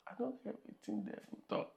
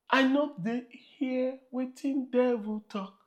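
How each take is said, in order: First: Whispered Pidgin line, fast; whispered repeat. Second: Said in the usual way. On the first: Acted. Pastor whispering the Pidgin line to the congregation. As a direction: whisper it back.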